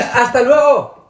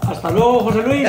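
First: Loud goodbye. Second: Said in the usual way. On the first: Acted. Despedida en voz alta.

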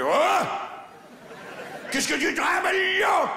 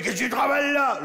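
First: High shouted Champagne patois, as a big spider; Champagne-country accent. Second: Put-on raised, higher Champagne-accented challenge; milder repeat of the Champagne spider voice. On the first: Acted. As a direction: holler it in a thick Champagne accent. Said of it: "je vous ai fait une araignée champenoise". (gros accent champenois, crié très aigu) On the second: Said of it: "une araignée champenoise de chez moi". (accent champenois, interpellation aiguë)

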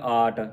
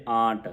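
First: ਆਟ with a purely oral aa; without nasal. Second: ਆਂਟ with nasalised long aa; with nasal. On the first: Teacher contrasting the unmarked word, oral ਆਟ. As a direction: drop all nasality from ਆਟ. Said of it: "ਬਿੰਦੀ ਤੋਂ ਰਹਿਤ ਹੋਵੇਗਾ". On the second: Teacher giving the correct word, nasalised ਆਂਟ. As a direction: hum the vowel of ਆਂਟ through the nose. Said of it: "ਬਿੰਦੀ ਲਾ ਕੇ ਉਚਾਰਨ". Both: Shown as a demonstration.

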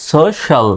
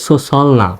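First: সোশ্যাল said as "so-shal"; a clear "sh" in the middle of সোশ্যাল; correct "sh" sound. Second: সোশ্যাল said wrongly as "so-sal"; plain "s" in the middle of সোশ্যাল, no "sh"; mispronounced with "s". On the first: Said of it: "তালব্য স্বর মতো উচ্চারিত হবে". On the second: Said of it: "এটা কিন্তু সোশ্যাল না". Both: Shown as a demonstration.

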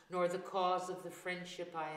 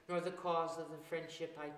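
No difference in how they are said.

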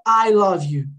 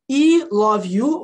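First: "I" said as "eye" in "I love you"; English pronunciation. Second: "I" said as "ee" in "I love you"; Portuguese letter reading. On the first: Teacher showing what you really say, English pronunciation. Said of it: "você fala". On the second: Teacher showing how nobody says it, mispronounced. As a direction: misread "I love you" as "ee love you", drawn out. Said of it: "Por que não é I love you". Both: Shown as a demonstration.

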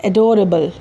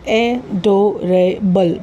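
First: Said in the usual way. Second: एडोरेबल in four slow, separate beats; syllable by syllable. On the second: Shown as a demonstration. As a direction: pause after each part of एडोरेबल: ए, डो, रे, बल. (एडोरेबल को चार टुकड़ों में धीरे-धीरे) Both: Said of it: "चार vowel sound है".

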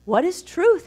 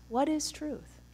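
First: Pilate asks "What is truth?" with a raised, curious pitch; curious question. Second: "What is truth?" said much softer, inward, the word "is" leaned on; hushed reflective question. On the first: Retold or imitated. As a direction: toss the question up high and searching. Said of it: "So Pontius is curious". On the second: Shown as a demonstration. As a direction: let the question hang, quietly. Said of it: "open up that question".

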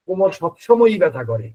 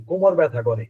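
First: সবসময়ই pressed firmly, with slightly more weight on the line; stress on সবসময়ই. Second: Said in the usual way. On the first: Shown as a demonstration. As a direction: lean into সবসময়ই to show it never stops. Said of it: "আপনারা কি পার্থক্যটা ধরতে পারছেন". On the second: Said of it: "আমি যদি এই টুকাইটা দেই".

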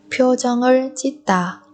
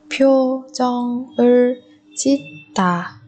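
First: Said in the usual way. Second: "표정을 짓다" slowly, syllable by syllable; drawn-out teaching model of "표정을 짓다". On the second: Shown as a demonstration. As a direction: separate each syllable of "표정을 짓다". Teacher repeats phrase syllable by syllable.

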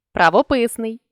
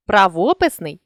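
First: Правописний with ПИС stressed; stress on third syllable. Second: Правописний with ВО stressed; stress on second syllable. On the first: Teacher shows a stress variant, правописний stressed on ПИС. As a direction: lean on ПИС inside правописний. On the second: Teacher shows a stress variant, правописний stressed on ВО. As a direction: lean on ВО inside правописний. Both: Shown as a demonstration. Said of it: "наголосивши той чи інший склад".

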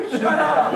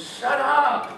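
First: Higher, louder, sharper command; louder rebuke. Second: Firm high command; commanding rebuke. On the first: Jesus repeating rebuke to the storm, louder command. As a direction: snap it at the storm harder. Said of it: "That's in the Greek". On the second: Jesus rebuking wind and waves, firm command. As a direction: tell the storm to stop. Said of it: "looks at wind and waves and says". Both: Retold or imitated.

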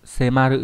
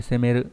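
First: "Semaru" with an a in the middle; corrected reading. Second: "semeru" with an e in the middle; mistaken reading. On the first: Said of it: "xin lỗi, không phải semeru". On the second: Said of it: "không phải semeru". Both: Shown as a demonstration.

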